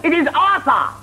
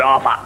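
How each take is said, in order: First: "Arthur" with a clean th, high and fussy; proper th. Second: "Arthur" said as "Arfur"; f instead of th in Arthur; Londoner Arfur. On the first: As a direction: stress the th of Arthur. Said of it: "That is not Arthur". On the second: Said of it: "He said". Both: Retold or imitated.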